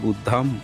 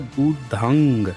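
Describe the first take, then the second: First: The word ends with an 'm' sound. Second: The word ends with an 'ng' sound. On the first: This is a Sanskritized pronunciation. The speaker calls it wrong. "इसका उच्चारण किए हैं बुद्धम शरणम" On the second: This is the original Pali pronunciation. The speaker calls it right. "इसका उच्चारण होता है बुद्धंग"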